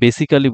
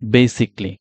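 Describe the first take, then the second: First: The ending is said fully as "-cally". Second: The ending is reduced to "-cly". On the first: The speaker calls it wrong. "আমরা যদি বেসিক্যালি বলি এটা আসলে ভুল হচ্ছে" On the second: The speaker calls it right. "এটা সঠিক উচ্চারণ হচ্ছে বেসিকলি"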